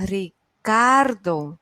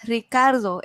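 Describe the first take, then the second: First: Very slow "Ricardo", CAR long and strong; stress on CAR. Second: Said in the usual way. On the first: Shown as a demonstration. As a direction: sound out "Ricardo" as Ri-CAAR-do. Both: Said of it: "¿Cuál es la sílaba tónica?".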